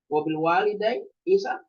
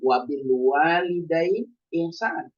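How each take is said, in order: First: Said in the usual way. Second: "Wabil walidain ihsan" recited slowly, each Arabic word drawn out; slow Arabic recitation. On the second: Shown as a demonstration. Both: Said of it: "dengan menggunakan kata ihsan".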